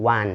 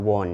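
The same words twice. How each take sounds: First: "wan" with an open A, like one; correct pronunciation of won. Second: "won" with a wrong O vowel, wawn; mispronounced won. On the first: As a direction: say "wan" as wun, never a rounded O. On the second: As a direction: say "won" as the learner's mistake, rounded like wawn. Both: Shown as a demonstration. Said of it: "ห้ามอ่านว่า won เด็ดขาด".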